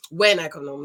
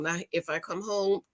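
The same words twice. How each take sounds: First: WHEN hit firmly as the correction; correcting herself with stress on When. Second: "if" marked as the wrong word, softer; dismissing the word if, trailing quieter; stress on IF. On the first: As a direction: lean on the word When to fix the slip. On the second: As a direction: set "if" apart as the rejected word. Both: Real, not acted.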